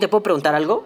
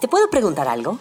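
First: It is said in a curt, unfriendly tone. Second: It is said in a friendly, polite tone.

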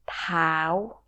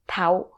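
First: The vowel is said long. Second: The vowel is said short. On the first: This is how people actually say it. "Spokenly, we say tao. ... pronounced like a long vowel" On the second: This follows the written form. "if you were to read as it's written, it's tau. It's like short vowel"

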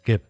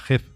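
First: The first sound is a hard g, as in guerra. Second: The first sound is the throaty Spanish j. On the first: The speaker calls it right. "es Geb, ... con la G solo se puede decir guerra" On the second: The speaker calls it wrong. "si lo pronunciamos como se leería en español, sería Geb"

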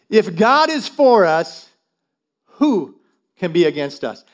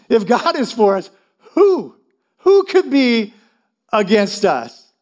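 First: It is said plainly, without laughter. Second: It is said almost laughing.

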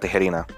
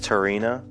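First: The name is pronounced with Spanish sounds. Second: The name is pronounced with English sounds. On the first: "in Spanish is [name]" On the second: "In English, it's Tirana"

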